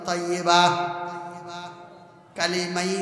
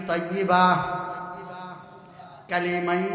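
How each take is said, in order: Both takes have the same delivery.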